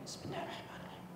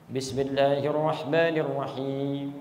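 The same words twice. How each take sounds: First: The phrase is said softly, almost silently. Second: The phrase is said aloud, loudly.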